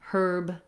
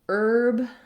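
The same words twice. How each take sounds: First: The word starts with an audible H sound. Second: The word starts with a vowel, no H. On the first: This is the British pronunciation. "in British English, they say herb with an H sound" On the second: This is the American pronunciation. "in American English, we say herb with no H"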